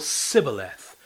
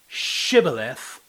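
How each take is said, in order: First: The word begins with a plain s sound. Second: The word begins with an sh sound. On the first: The speaker is an enemy. The speaker calls it wrong. "Sh or s" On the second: The speaker is not an enemy. The speaker calls it right. "Sh or s"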